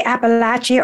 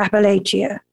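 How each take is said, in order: First: "Appalachia" with third syllable as "latch"; short-a pronunciation. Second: "Appalachia" with third syllable as "lay"; long-a pronunciation. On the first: Host asks poet which way she says it, "Appalachia" with a LATCH sound. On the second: Host offers poet the other option, "Appalachia" with a LAY sound. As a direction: say "Appalachia" as appa-LAY-shee-a. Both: Shown as a demonstration. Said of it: "Do you say Appalachia or Appalachia?".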